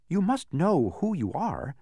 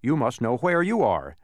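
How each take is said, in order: First: Slow, higher-pitched impatient insistence. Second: Mildly annoyed retort. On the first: Milo to the confused man, impatient. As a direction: press the point with mounting impatience. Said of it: "said Milo impatiently". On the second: Confused man answering Milo back, annoyed. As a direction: throw the point back with equal annoyance. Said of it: "replied with equal annoyance". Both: A narrator's reading.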